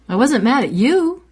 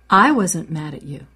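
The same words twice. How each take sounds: First: The word you is stressed. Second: The word I is stressed. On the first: The anger was aimed at someone else. "You're off the hook. I was mad at my mother" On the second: Someone else may have been mad. "Maybe someone else was mad, but I wasn't"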